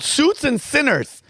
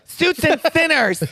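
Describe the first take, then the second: First: It is said in his normal voice. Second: It is said in a put-on stereotyped voice.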